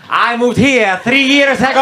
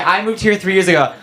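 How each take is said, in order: First: Higher, sing-song Italian lilt; mock Italian accent. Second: Said in the usual way. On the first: Italian mocking how Italians say where they're from, mock Italian accent. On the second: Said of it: "Then when I be like".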